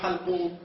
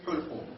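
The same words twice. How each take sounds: First: The first vowel is not a 'u' sound. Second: The first vowel is a 'u' sound. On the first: The speaker calls it wrong. "مو حلقوم" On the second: The speaker calls it right. "بضم الحاء"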